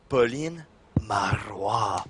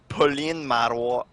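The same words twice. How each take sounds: First: The name is said slowly in a seductive voice. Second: The name is said plainly at normal speed. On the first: "Say it slowly and seductively" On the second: "pronounce her name again"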